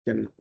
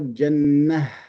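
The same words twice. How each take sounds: First: The word ends on a bare vowel. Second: The word ends with an h sound. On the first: The speaker calls it wrong. "they drop the tanween and they drop the ta, but they do not replace it with a ha" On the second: The speaker calls it right. "We need this ha at the end"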